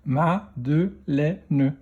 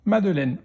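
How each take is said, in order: First: Slow "Madeleine", split into ma, de, lè, ne; "Madeleine" in four separate beats; syllable by syllable. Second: Said in the usual way. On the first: Shown as a demonstration. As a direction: sound out "Madeleine" with a final ne. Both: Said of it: "dans quelle syllabe".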